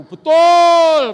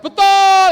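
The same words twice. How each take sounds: First: High, very loud drawn-out yell; mock crowd shout; men's shouted agreement. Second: Piercing high, very loud yell; mock female crowd cry; women's shouted agreement. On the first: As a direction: bellow a long "betul" like the men in the crowd. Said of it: "katanya gitu". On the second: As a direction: shout "betul" at top pitch like the women. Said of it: "Yang perempuan ngomong".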